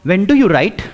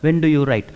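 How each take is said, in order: First: The question is said with force and energy. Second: The question is said flat, without force. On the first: The speaker sounds confident. The speaker calls it right. "देखो question में दम लग रहा है" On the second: The speaker sounds unconfident. The speaker calls it wrong. "इस question में दम नहीं लगता है"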